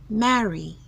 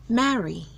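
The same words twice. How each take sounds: The two takes are said the same way.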